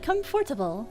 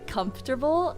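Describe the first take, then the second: First: The word is said in a careful reading-aloud way. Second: The word is said in an everyday casual way. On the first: This is how the word comes out when reading aloud. "if I'm reading, I'm like comfortable" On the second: This is how the word is said in everyday speech. "I always say comfortable"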